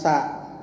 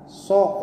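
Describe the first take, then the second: First: The syllable has an a vowel. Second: The syllable has an o vowel. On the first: The speaker calls it wrong. "bukan sa" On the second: The speaker calls it right. "Padahal so ya"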